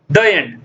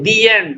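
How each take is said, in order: First: 'The' is said with a short 'uh' vowel. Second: 'The' is said with a long 'ee' vowel. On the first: The speaker calls it wrong. "don't say the end" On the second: The speaker calls it right. "Always say the end"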